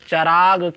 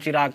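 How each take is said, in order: First: The first syllable has the vowel 'a'. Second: The first syllable has the vowel 'i'. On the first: The speaker calls it right. "इसको चिराग नहीं पढ़ेंगे, इसके ऊपर चा के ऊपर ज़बर पढ़ेंगे" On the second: The speaker calls it wrong. "इसमें गलती करते आदमी चिराग चिराग करते हैं"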